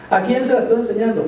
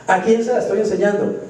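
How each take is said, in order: Both takes have the same delivery.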